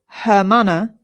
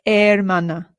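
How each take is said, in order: First: The word begins with an audible h sound. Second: The word begins with no h sound. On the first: The speaker calls it wrong. "so this is not hermana" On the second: The speaker calls it right. "we don't pronounce the H in Spanish, ... it's hermana"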